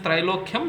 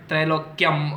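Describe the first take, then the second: First: The ending is a clear 'kyam' sound. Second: The ending is not a clear 'kyam' sound. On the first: The speaker calls it right. "that's how you're supposed to pronounce it" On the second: The speaker calls it wrong.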